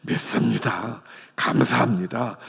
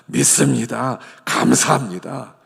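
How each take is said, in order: First: Said in the usual way. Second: 믿습니다 감사합니다 said louder, firm; louder declaration. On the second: Shown as a demonstration. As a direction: proclaim it out loud with conviction. (크게 선포하듯) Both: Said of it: "하여간 믿습니다예요".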